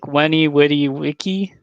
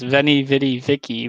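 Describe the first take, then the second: First: The words start with a W sound. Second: The words start with a V sound.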